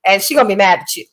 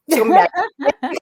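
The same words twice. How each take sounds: First: Said in the usual way. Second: Rushed, giggling repeat, higher; laughing at her own threat; laughing through it. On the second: Real, not acted. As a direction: blurt it out while cracking up.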